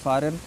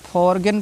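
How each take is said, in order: First: The g sound is left out. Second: The g sound is clearly pronounced. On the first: The speaker calls it right. "जबकि फॉरेन लिखा हुआ है" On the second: The speaker calls it wrong. "फॉरगन पढ़ते हैं"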